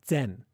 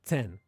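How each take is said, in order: Both takes have the same delivery.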